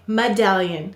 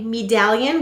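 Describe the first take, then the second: First: The first vowel is a reduced 'uh'. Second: The first vowel is a full long 'ee'. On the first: The speaker calls it right. "we say medallion" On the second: The speaker calls it wrong. "we don't say medallion"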